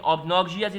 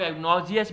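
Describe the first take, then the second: First: "obnoxious" with the b sounded as a p, "op-NOK-see-us"; correct pronunciation. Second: "obnoxious" with the b dropped, like "enoxious"; variant pronunciation. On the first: Teacher giving learners the correct form, "obnoxious" with its b sounded. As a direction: sound the first syllable of "obnoxious" fully, "ops-nok-sias". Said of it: "is the correct, uh, pronunciation". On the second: Teacher showing how some people say it, "obnoxious" without the b. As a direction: say "obnoxious" as "e-NOK-zee-us", no b. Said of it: "कुछ लोग obnoxious भी कहते हैं".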